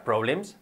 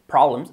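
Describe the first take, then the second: First: "problems" said the wrong way learners say it; wrong-example "problems", to be avoided; mispronounced problems. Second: "Problems" modelled clearly, stressed on the first syllable; teacher's correct "Problems"; correct pronunciation of problems. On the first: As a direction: demonstrate the mistaken pronunciation of "problems". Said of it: "cuidado con la pronunciación que no sería". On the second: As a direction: model "Problems" with a strong open first vowel. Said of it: "cuidado con la pronunciación". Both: Shown as a demonstration.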